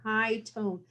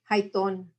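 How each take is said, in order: First: It is said in a standard English accent. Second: It is said in a Chicano English accent. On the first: "except we didn't pronounce it that way" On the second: "You pronounced it high tone"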